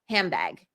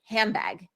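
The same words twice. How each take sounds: First: The D changes into a B sound. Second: The D changes into a B sound.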